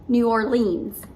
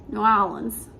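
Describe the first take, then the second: First: A pronunciation the speaker herself never uses. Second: An imitation of how locals pronounce the name. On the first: "I definitely don't say New Orleans" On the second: "in New Orleans, they say New Orleans"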